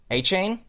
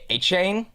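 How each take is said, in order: First: The name is said the Cajun way, like A-Chain. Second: The name is said the Cajun way, like A-Chain.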